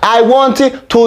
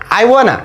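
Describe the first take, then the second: First: Each word of 'want to' is said separately. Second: The words blend into one reduced 'wanna'. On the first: The speaker calls it wrong. "no that's crazy man" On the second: The speaker calls it right. "that's what I'm talking about"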